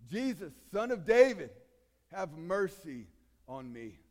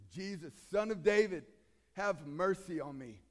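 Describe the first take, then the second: First: Crying out louder. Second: A loud, pleading cry to Jesus. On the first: Beggar cries out again, desperate and much louder. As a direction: shout it from the depths of the soul. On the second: Blind beggar calls to Jesus from the roadside, loud plea. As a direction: call out for mercy, louder. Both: Retold or imitated. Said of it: "he cries out".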